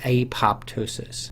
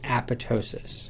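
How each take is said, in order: First: The word is said with a 'pop' sound. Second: The word is said without a 'pop' sound. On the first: The speaker calls it wrong. "an incorrect pronunciation of the word" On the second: The speaker calls it right. "the word is pronounced apoptosis"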